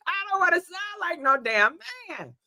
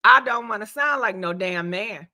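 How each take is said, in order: First: Higher, lighter repeat; high-pitched protest. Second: Low, sick-voiced grumble; low-voiced complaint. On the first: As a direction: protest in a raised voice. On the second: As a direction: say it down in a deep register. Joking about sick voice sounding deep. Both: Real, not acted.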